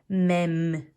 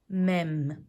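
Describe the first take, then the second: The two takes are said the same way.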